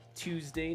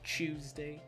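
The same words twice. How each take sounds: First: The word begins with a plain 't' sound. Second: The word begins with a 'ch' sound. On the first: The speaker calls it right. "it's clearly T U E S D A Y" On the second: The speaker calls it wrong. "not Tuesday. We don't chew anything"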